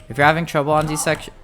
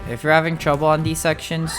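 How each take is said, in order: Both takes have the same delivery.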